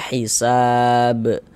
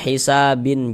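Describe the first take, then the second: First: The word ends on a bare b sound. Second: The word ends with an added -in sound. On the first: The speaker calls it right. "kalau kita berhenti di huruf ba kita baca hisab" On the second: The speaker calls it wrong. "Jangan dibaca hisabin"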